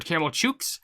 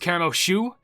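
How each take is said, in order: First: The second word starts with a ch sound. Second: The second word starts with an sh sound. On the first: The speaker calls it wrong. "I thought it was" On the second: The speaker calls it right. "it's more like S H O U"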